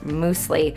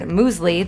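First: It is said like 'moosely', starting with 'moose'. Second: It is said in the standard way, like 'mewzlee'. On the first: This is a personal mispronunciation of the word. The speaker calls it wrong. "how I pronounce muesli, which is muesli" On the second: This is the usual way the word is said. The speaker calls it right. "comes from the word muesli that I've mispronounced for so long"

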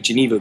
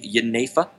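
First: The word is given its English pronunciation. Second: The word is given its Dutch pronunciation. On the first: "the pronunciation in English would be Geneva" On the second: "the pronunciation in Dutch would be Jenever"

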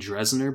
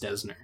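First: An r sound follows the first D. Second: No r sound follows the first D. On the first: The speaker calls it wrong. "I like to say Dresner" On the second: The speaker calls it right. "but it's Desner"

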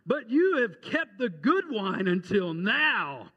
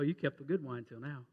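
First: The line is said with excited exclamation. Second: The line is said in a flat, unexcited way. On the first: The speaker is thrilled by the surprise. The speaker calls it right. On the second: The speaker is unmoved by the surprise. The speaker calls it wrong. "I don't think he said it that way at all"

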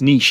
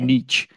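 First: It is said with a British English pronunciation. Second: It is said with an American English pronunciation. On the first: "in British English it's niche" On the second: "Americans say niche"

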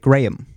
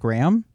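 First: The vowel in the middle is higher. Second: The name sounds like the word gram. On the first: This is how other people say it. The speaker calls it wrong. "It's a little higher in the middle" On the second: This is how the name's owner says it. The speaker calls it right. "sort of like a gram of cracker or cocaine"

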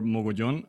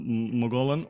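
First: The surname is pronounced the Spanish way. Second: The surname is pronounced the English way.

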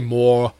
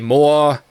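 First: The final r sound is clearly pronounced. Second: The final r is dropped, ending in ah. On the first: This is how people elsewhere say it. "they don't say more" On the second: This is how people from Boston say it. "They say more. You know, it all comes out with the ah kind of thing"

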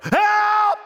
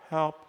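First: It is cried out with fervent urgency. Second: It is said calmly without urgency.

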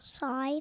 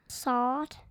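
First: The vowel is a full 'eye' diphthong. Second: The vowel is flattened, close to 'ah'. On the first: This is the speaker's own way of saying it. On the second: This imitates the other person's accent.

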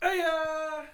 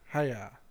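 First: It is said with lots of enthusiasm. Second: It is said flatly, without enthusiasm.

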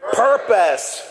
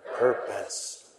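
First: It is said big and loud. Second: It is said small and soft.

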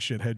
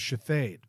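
First: The name is said like the English insult. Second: The name is said with a French-sounding ending. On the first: This is how the spelling reads to others. "I'm teaching Shithead Jones" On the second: This is how the bearer of the name says it. "how are you pronouncing that? And he goes"

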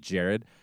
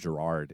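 First: The name sounds like Jared. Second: The name sounds like Gerard. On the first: This is how the name's owner says it. The speaker calls it right. "he pronounces it Jared" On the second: This is how other people often say it. The speaker calls it wrong. "the amount of times I hear people call him Gerard"

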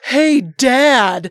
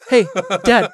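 First: It is said slowly and clearly. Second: It is said quickly, slurred together.

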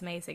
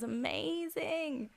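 First: The word is said flat and quick. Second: The word is said slow and drawn out. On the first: The speaker calls it wrong. "It's not just like, oh, that was amazing" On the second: The speaker calls it right. "you have to emphasize it and draw it out"

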